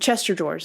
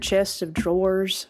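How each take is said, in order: First: The 'of' merges into one word, 'chester'. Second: The word 'of' is said as a separate word. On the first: "is what a lot of us used to call them" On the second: "I said it right that time"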